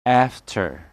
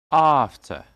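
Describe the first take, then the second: First: "After" with flat "a", R ending; American pronunciation. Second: "After" with long "ah", no R; British pronunciation. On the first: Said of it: "The stress is on the first". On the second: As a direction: say "After" as British "AHF-tuh". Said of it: "And American English will be". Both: Shown as a demonstration.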